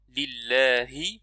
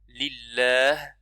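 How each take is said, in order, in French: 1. Le mot se termine par la voyelle i brève. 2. Le mot se termine par une consonne nue. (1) "On ne dit pas lillahi et on s'arrête" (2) "quand on s'arrête, on s'arrête avec sukoun"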